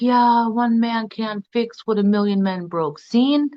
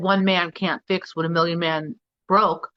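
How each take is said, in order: First: It is said in his father's Jamaican patois voice. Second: It is said in the speaker's own plain accent.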